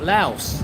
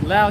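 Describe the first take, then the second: First: The word ends with an s sound. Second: The word ends without an s sound. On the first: The speaker calls it wrong. "It's not Laos" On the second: The speaker calls it right. "it's Lao"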